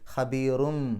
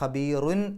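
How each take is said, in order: First: The word ends with a nasal m sound. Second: The word ends with a clear n sound. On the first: The speaker calls it right. "സാവകാശം മീമിലേക്ക് കൊണ്ടുപോവുക" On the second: The speaker calls it wrong. "എൻ എന്നല്ല അവിടെ ഉച്ചാരണം വരേണ്ടത്"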